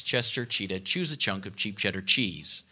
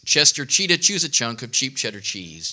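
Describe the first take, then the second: First: Softer, lower run-through of "Chester Cheetah"; a quieter run of the tongue twister. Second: Said in the usual way. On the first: Shown as a demonstration. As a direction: drop down and rattle it off to yourself. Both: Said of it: "Here's a good one".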